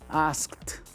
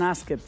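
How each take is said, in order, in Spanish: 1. Se dice con sonido final de T. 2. Se dice sin sonido final de T. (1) "¿cómo lo vamos a decir?" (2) "No digan asked, please"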